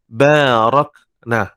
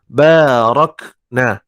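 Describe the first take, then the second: No difference in how they are said.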